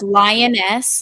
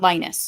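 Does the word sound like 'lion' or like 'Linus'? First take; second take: lion; Linus. First: It begins with the word lion. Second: It begins like the name Linus. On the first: The speaker calls it right. "like a female lion" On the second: The speaker calls it wrong. "not lioness"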